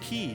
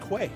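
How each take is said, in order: First: It is said like the word 'key'. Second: It is said with a 'kw' start, rhyming with 'way'. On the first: The speaker calls it right. "It's pronounced key" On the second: The speaker calls it wrong. "for the longest time, I thought it was pronounced quay"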